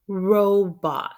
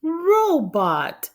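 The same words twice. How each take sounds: First: Said in the usual way. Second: "Robot" high and loud, then falling; high excited word. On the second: Shown as a demonstration. Teacher reveals "Robot" to kids, high and bright. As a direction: cheer out "Robot" once it's spelled. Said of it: "R-O-B--O-T".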